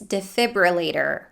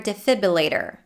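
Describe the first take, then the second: First: The R after the B is clearly pronounced. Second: The R after the B is replaced by a vowel. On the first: The speaker calls it right. "the correct way to say it is defibrillator with the R and the schwa" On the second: The speaker calls it wrong. "The R after the B might be dropped and substituted with the U sound and the schwa"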